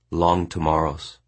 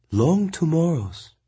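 First: Said in the usual way. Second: Higher, slow woman's echo; Mongnan echoing. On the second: A narrator's reading. Mongnan slowly echoing the orphanage's name. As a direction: repeat it knowingly.

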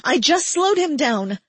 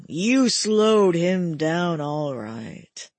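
First: Higher and louder pleading denial; desperate protest. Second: Slow, mocking cackle through the words; cackling. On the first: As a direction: insist it, raised and desperate. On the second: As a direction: gloat it slowly with a cackle. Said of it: "he cackled". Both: A narrator's reading.

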